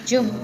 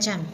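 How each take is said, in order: First: The vowel sounds like a short u. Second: The vowel sounds like an open a. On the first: "Macam-macam bacanya jum gitu. Aksennya ya" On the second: "apakah mereka bacanya jam?"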